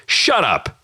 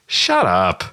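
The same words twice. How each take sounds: First: Quick, curt brush-off; dismissive shut up. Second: Stretched, wobbly "shut up"; drawn-out wiggly shut up. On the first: Shown as a demonstration. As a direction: cut them off sharply. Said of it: "you walk over and you just". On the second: Retold or imitated. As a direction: drag it out with a wiggle. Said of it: "the drawn out kind of wiggly".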